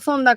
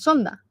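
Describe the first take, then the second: First: It begins with a 'th' sound. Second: It begins with an 's' sound. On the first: "es viento zonda con Z" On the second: "aquí lo pronuncian sonda"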